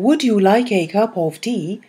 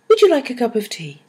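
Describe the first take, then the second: First: The small words keep full, stressed vowels. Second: The small words have weak, reduced vowels. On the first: The speaker calls it wrong. "instead of saying" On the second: The speaker calls it right. "You say"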